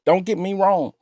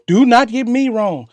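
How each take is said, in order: First: Said in the usual way. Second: "not" spelled out and stressed. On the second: Real, not acted. Host assures the caller, stress on "not". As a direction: lean hard on "not".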